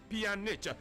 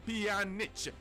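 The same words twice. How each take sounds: No difference in how they are said.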